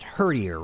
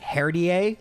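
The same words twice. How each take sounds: First: The name is said like an English word. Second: The name is said like a French word. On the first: It is the intended pronunciation. "but I think it's pronounced Herdier" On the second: It is said as a joke. "kind of as a joke, I pronounce it Herdier, like it's a French word"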